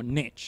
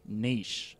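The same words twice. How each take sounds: First: It is said with an American pronunciation. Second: It is said with a non-American pronunciation. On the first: "if you're an American" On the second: "pronounced differently regionally"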